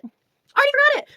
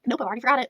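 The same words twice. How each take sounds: First: Much higher, louder exclamation; incredulous repeat. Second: Said in the usual way. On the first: Real, not acted. Reviewer repeats she forgot his name, incredulous and high. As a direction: pitch way up in disbelief.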